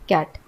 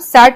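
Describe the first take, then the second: First: The word begins with a k sound. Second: The word begins with an s sound. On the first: The speaker calls it right. "हमने इसे क का उच्चारण के रूप में पढ़ा" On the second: The speaker calls it wrong. "इसे हम सैट नहीं पढ़ेंगे"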